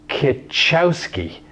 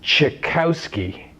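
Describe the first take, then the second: First: The name is said like Kitchowski. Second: The name is said like Tchaikovsky. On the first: The speaker calls it wrong. "you might think that it's Kitchowski, but that's actually not correct" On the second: The speaker calls it right. "the proper pronunciation is"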